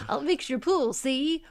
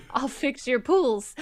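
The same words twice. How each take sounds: First: Lightly voiced cartoon villain; a hint of a scheming villain, teasing; Snidely Whiplash. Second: Said in the usual way. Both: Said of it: "they gave a no-bid contract to Snidely Whiplash".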